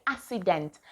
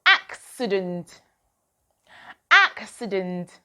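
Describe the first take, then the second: First: "accident" said as ASS-i-dent, without the k; "accident" with no k sound, like assident; wrong pronunciation. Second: "Accident" slowly as AK-si-dent with a clear k; "Accident" spelled out in sound, ak-si-dent, slowed down; careful model pronunciation. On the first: Teacher showing children the mistake, "accident" without the k. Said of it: "Do not say accident". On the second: Teacher having children watch her mouth, slow "Accident" with the k. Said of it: "Look at my mouth". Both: Shown as a demonstration.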